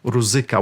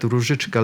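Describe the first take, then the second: First: The word has a plain z and k sound. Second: The word has a zh and ch sound. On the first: The speaker calls it wrong. "the actors were saying Ruzika" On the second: The speaker calls it right. "Such a beautiful word"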